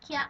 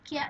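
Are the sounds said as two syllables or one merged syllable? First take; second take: one syllable; one syllable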